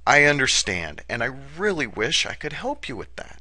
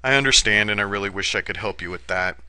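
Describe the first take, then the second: First: It is said warmly, with sincere care. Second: It is said flatly, without warmth or care. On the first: The caller feels genuinely cared for. The speaker calls it right. "Using the exact same words, I could say" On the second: The words have little effect. The speaker calls it wrong. "Without using my voice, tone, and inflection to tell the caller that I care"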